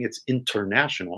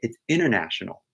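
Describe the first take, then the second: First: The T sound in the middle is pronounced. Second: The T sound in the middle is dropped. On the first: "when you see the spelling" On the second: "when you say it"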